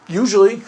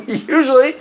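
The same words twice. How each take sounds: First: Said in the usual way. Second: Laughing repeat. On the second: Real, not acted. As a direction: laugh the word Usually out.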